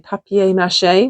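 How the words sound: It is said the British way, papier. "I always used to say papier mâché when I was living in the British side of things"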